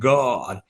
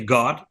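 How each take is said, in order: First: The vowel is drawn out long. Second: The vowel is short and clipped. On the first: The speaker calls it right. "it's like God. You know, make it longer. Uh, so it sounds more American" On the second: The speaker calls it wrong. "not we say God"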